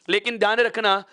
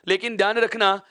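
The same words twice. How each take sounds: Both takes have the same delivery.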